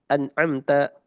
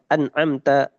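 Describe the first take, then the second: Both takes have the same delivery.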